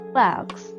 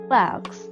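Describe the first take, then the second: First: It is said with an American vowel sound. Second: It is said with an American vowel sound.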